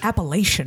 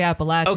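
First: It is pronounced the way outsiders say it. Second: It is pronounced the way locals say it. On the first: The speaker sounds like someone not from the region. The speaker calls it wrong. "if you want to sound like a fool, you say Appalachian" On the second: The speaker sounds like a native of the region. The speaker calls it right. "if you want to sound like a native, you say Appalachian"

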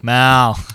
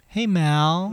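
First: It is said in a low voice. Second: It is said in a high voice.

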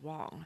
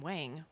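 First: The vowel sounds like the one in 'song'. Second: The vowel sounds like the one in 'bang'. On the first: This form is closer to the Chinese original. "It's also correct to pronounce it as Wong" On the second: This is the form she has used her whole life. "you pronounce my name Wang, which is correct"

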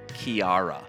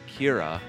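First: It starts with a K sound, three syllables. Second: It starts with a K sound, two syllables. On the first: This is how a foreign broadcaster said it. The speaker calls it wrong. "someone on Sky News pronounced it Kiara" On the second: This is how Irish people say it. The speaker calls it right. "the correct pronunciation, as lots of people from Ireland pointed out, it is Kira"

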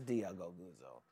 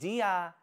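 First: It is muttered under the breath. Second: It is said in a normal voice.

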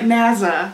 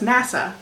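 First: The middle consonant is a voiced z sound. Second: The middle consonant is a voiceless s sound. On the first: "so you voice it" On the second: "everyone else says NASA"

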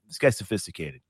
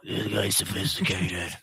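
First: It is said in the speaker's ordinary voice. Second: It is said in a put-on character voice.

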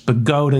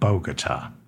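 First: The name is said the local New Jersey way. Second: The name is said a different, non-local way. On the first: This is how the town's own residents say it. The speaker calls it right. "It's Bogota, New Jersey" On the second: This is not how the town's own residents say it. The speaker calls it wrong. "not Bogota"

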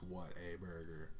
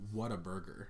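First: The words are stretched out slowly and separately. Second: The words are run together quickly as one. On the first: It exclaims about how good the burger is. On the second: It names the restaurant.

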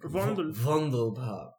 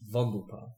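First: The name is said with a marked accent. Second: The name is said without a marked accent. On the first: "but with an accent" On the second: "Let's say it properly"

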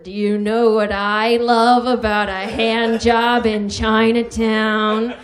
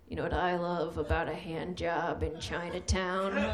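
First: It is said at a louder volume. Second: It is said at a quieter volume.

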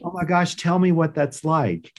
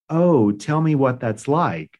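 First: It sounds eager and interested, without pity. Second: It sounds dismal and pitying.

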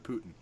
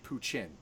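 First: The middle consonant is a t sound. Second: The middle consonant is a ch sound. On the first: This is the original Russian family name. The speaker calls it right. "Putin's his name" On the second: This is how Japanese speakers would say it. The speaker calls it wrong. "there is no T sound in Japanese. It's a chin"

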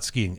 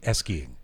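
First: The word starts directly with the s sound. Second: The word starts with an extra e vowel. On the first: The speaker calls it wrong. "Not skiing" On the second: The speaker calls it right.

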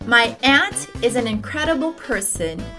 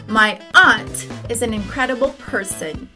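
First: Aunt sounds exactly like the word ant. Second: Aunt has a vowel unlike the one in ant.

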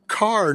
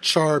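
First: The word begins with a k sound. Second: The word begins with a ch sound. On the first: The speaker calls it wrong. "if you said – car, no one knew what you were saying" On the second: The speaker calls it right. "we said it char"

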